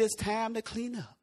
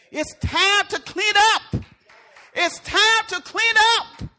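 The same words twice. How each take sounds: First: Said in the usual way. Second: High, loud, drawn-out command; emphatic shout. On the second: Acted. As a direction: belt it out slowly to rouse a congregation. Repeats the command, raising voice.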